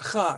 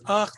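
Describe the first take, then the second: First: The vowel sound comes after the consonant. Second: The vowel sound comes before the consonant. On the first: The speaker calls it wrong. "not cha" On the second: The speaker calls it right. "it says ach"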